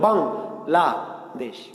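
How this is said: The word is split into three separate parts. The speaker calls it right. "এই যে বাং বললে বাতাস বের হলো"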